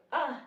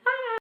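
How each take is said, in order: First: Short, small "ah"; imitating a mild little exclamation; not screaming. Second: High, loud mock scream; piercingly high acted shriek; imitated scream. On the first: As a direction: let out a brief "ah", no scream. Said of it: "she was not screaming". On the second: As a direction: scream like someone calling from downstairs. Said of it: "heard my sister screaming downstairs".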